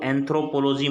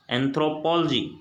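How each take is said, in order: First: एंथ्रोपोलॉजी with "po-lo" said flat, anthro-po-lo-gy; wrong pronunciation. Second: एंथ्रोपोलॉजी as "anthro-POL-ogy", "pol" stressed and "o" swallowed; correct pronunciation. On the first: Teacher showing the wrong way, "anthro-po-lo-gy". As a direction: say the mistaken एंथ्रोपोलॉजी spelling-style. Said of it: "मत पढ़ना". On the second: Teacher modelling the right way for students, "anthro-POL-ogy". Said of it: "सही pronunciation है". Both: Shown as a demonstration.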